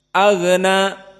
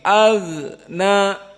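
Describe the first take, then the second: First: The gh sound is said quickly. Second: The gh sound is said slowly and drawn out. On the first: The speaker calls it wrong. "tidak boleh cepat seperti" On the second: The speaker calls it right. "harus lambat, harus ada jenjang waktu"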